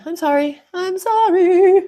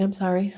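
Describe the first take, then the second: First: Sorry climbing higher and louder; stretched, squeaky mock apology; comic rising apology. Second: Said in the usual way. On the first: Apologising for runny nose.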